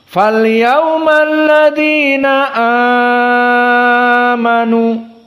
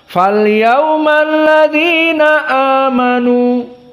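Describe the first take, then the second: First: The vowel in amanu is held much longer. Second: The vowel in amanu is held briefly. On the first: This is the reading of Warsh. "Wars berkesendirian dengan dalam keadaan al-isba'" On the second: This is the majority reading. "jumhur membaca dengan al-qasr. Maknanya hanya dua harokat"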